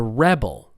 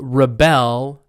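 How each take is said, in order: First: The stress is on the first syllable. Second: The stress is on the second syllable. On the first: It is used as a noun. "It's on the first syllable" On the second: It is used as a verb. "verbs on the second"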